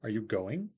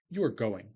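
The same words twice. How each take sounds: First: "going" lifts sharply at the end; yes-no question, pitch swept up on "going"; rising question intonation. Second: "going" drops at the end; plain statement, pitch falling on "going"; falling statement intonation. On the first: Lecturer demonstrating a yes-no question, rising intonation. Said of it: "You go up at the end". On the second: Lecturer contrasting statement with question, falling intonation. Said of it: "you could fall at the end". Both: Shown as a demonstration.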